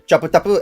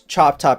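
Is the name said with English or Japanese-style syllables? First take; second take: Japanese; English. First: It is said with vowels added after each consonant. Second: It is said as two closed English syllables. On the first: "in Japanese it would be pronounced" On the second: "my username on uh the internet is"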